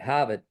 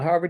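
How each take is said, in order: First: It is said in a Boston accent. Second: It is said in a general American accent.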